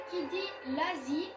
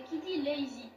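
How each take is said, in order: First: "lazy" said the French way, as la-zi; French reading of "lazy", open a; French-style pronunciation. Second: "lazy" in an English accent, lay-zee. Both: Shown as a demonstration. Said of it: "j'aime bien avec l'accent anglais".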